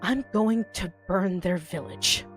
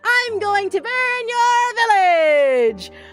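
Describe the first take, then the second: First: It is spoken quietly, as to a confidant. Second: It is shouted loudly, as to a crowd.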